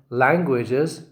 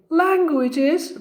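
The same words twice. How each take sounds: First: Said in the usual way. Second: Languages pitched much higher with a rise; high-pitched demo of languages. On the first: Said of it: "if I say languages like this". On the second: Shown as a demonstration. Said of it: "it is high".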